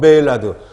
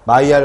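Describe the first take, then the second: First: The name is pronounced the English way, 'may-lard'. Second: The name is pronounced the French way, 'my-al'. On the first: "영어로 읽으면 메일라드" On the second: "불어를 읽으면 마이알이 된다는 거죠"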